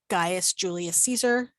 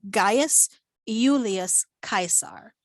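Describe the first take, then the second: First: The name is said with English pronunciation. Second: The name is said with Latin pronunciation. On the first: "that's how we would say it in English" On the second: "In Latin, it'd be"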